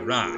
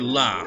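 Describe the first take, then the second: First: The syllable starts with an R-like sound. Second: The syllable starts with a clear L sound. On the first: The speaker calls it wrong. "they would say ra" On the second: The speaker calls it right. "say la, for example"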